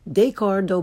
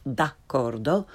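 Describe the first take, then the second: First: "d'accordo" starting with English day; learner's mispronunciation. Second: "d'accordo" starting with open dah; correct Italian pronunciation. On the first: Teacher shows beginners' mistake, "d'accordo" starting day. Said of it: "first the way most people". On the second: Teacher corrects beginners, "d'accordo" with Italian ah. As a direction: say "d'accordo" as dahk-KOR-do, rising. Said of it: "follow it with the correct pronunciation". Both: Shown as a demonstration.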